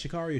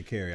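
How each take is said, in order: First: Sha'Carri with "car" in the middle; first pronunciation. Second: Sha'Carri with "carry" at the end; alternative pronunciation. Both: Shown as a demonstration. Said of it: "I've heard both pronunciations".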